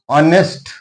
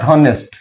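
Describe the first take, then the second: First: The word starts without an H sound. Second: The word starts with an H sound. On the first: The speaker calls it right. "H is silent here" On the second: The speaker calls it wrong. "not honest"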